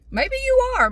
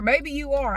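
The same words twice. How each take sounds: First: Much higher and louder teasing squeal; mock squeak. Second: Said in the usual way. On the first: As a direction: tease them in a sudden high squeak. Teasing the viewer about substitute swears.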